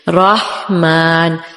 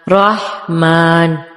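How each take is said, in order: Both takes have the same delivery.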